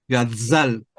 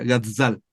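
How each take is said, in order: First: Slow gazal, buzzing z like a bee; pronunciación de gazal. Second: Gazal, buzzing z like a bee; pronunciación de gazal. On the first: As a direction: draw out gazal with a buzzing zzz. (gazal lento, con z de abeja) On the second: (gazal con z zumbante) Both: Shown as a demonstration. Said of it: "se pronuncia gazal".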